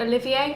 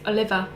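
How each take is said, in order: First: The name ends with an 'ay' sound. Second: The name ends with an 'er' sound. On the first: The speaker calls it wrong. "I actually said Olivier" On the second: The speaker calls it right. "It's Oliver"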